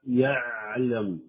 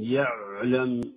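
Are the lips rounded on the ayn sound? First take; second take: no; yes. First: The ayn is harsh, with unrounded lips. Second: The ayn is harsh, with rounded lips. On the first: "فيجعلها شديدة قاسية" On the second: "وبعضهم يضيف إلى ذلك ضم الشفتين"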